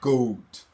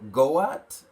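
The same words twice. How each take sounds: First: The vowel is one sound in one syllable. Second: The A is sounded, splitting the word in two. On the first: The speaker calls it right. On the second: The speaker calls it wrong.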